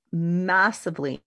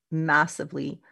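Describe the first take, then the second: No difference in how they are said.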